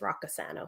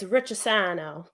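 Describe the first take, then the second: First: The surname is pronounced with English sounds. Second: The surname is pronounced with Italian sounds. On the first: This is how the family says it. "what we say is" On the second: This is how it is said in Italy. "the Italian way is"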